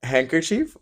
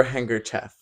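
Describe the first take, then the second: First: Handkerchief ending in a long "cheef"; "chief" pronunciation. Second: Handkerchief ending like "chef"; "chef" pronunciation. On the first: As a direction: say Handkerchief with an "ee" in the last syllable. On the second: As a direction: say handkerchief with a short "eh" in the last syllable. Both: Shown as a demonstration. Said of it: "Handkerchief or handkerchief?".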